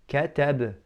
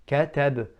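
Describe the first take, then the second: The two takes are said the same way.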